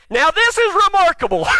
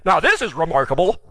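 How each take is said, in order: First: High, shouted mock astonishment; sarcastic amazement. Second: Understated sarcasm at normal pitch; sarcastic. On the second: Acted. Healed man needling religious people, understated sarcasm. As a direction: say it with dry mock wonder. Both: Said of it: "now he's being sarcastic".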